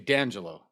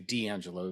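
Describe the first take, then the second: First: The name is pronounced the Italian way. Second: The name is pronounced the English way. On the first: This is how people in Italy say it. "when I go to Italy, they say D'Angelo" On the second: This is not how people in Italy say it. "They don't say D'Angelo"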